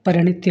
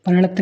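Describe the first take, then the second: First: परिणति with a clear final ti, the right form; correct ending. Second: परिणत cut off without the final i, the wrong form; wrong ending. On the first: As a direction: finish परिणति on ti. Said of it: "परिणति होता है". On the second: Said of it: "परिणत नहीं". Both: Shown as a demonstration.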